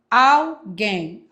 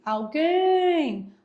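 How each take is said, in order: First: Alguém split into AL and GUÉM, louder; syllable-by-syllable demo. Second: Alguém with GUÉM stretched long and high; stressed syllable demo. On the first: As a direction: pull Alguém apart into two separate syllables. (Alguém silabado, AL, GUÉM, com voz mais forte) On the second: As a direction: hold the last syllable of Alguém, pitched up. (Alguém com GUÉM alongado e bem agudo) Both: Shown as a demonstration. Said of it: "Oxítono".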